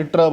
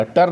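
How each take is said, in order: First: "ट्र" with ट running straight into र; blended consonant cluster. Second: "टर" with a vowel between ट and र; wrong-way demo of "टर", vowel after the ट; split consonant cluster. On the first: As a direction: say "ट्र" as tr-uh, no vowel inside. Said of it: "इसलिए ट्र बनेगा". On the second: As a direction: say "टर" as t-uh-r, the sounds pulled apart. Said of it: "टर नहीं बनेगा ये". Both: Shown as a demonstration.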